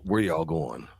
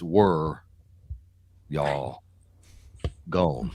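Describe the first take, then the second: First: The last word is said in full as 'going'. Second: The last word is clipped to sound like 'gone'.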